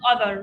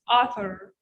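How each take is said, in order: First: The first vowel sounds like the one in 'other'. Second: The first vowel sounds like the one in 'law'. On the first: The speaker calls it wrong. "not other" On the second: The speaker calls it right. "It's author. Tah"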